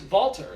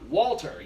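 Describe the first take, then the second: First: The name begins with a V sound. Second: The name begins with a W sound. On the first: This is the proper pronunciation in his native language. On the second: This is the usual English pronunciation.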